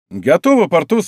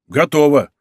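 First: ГОТОВО asked high and loud, pitch lifted; rising question. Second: ГОТОВО as a firm, falling reply; falling answer. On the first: D'Artagnan asking Porthos if ready, ГОТОВО raised questioningly. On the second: Porthos answering D'Artagnan, ГОТОВО falling and firm. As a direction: confirm ГОТОВО loudly, pitch dropping at the end. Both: A narrator's reading.

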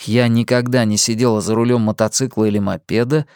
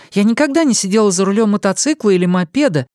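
First: Said in the usual way. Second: Higher female voice, fast and eager, stress on никогда; eager young woman. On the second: A narrator's reading. Young woman admits she has never ridden, quick and eager. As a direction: rush it out, thrilled at something new.

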